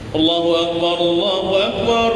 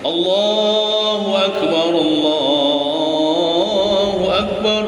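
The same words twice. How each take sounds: First: It is said quickly with little pause between. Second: It is said slowly with a long pause between. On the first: This is how the call to begin prayer is given. "lamun qamat ayo dicepati" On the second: This is how the call to prayer is given. "jangan kayak tamat terlalu cepat"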